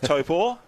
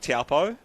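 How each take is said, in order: First: The final vowel is held long. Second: The final vowel is kept short. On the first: This is the correct Māori pronunciation. The speaker calls it right. "my pronunciation of Topor" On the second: This is the habitual anglicized pronunciation. The speaker calls it wrong. "after a lifetime of saying Taupo"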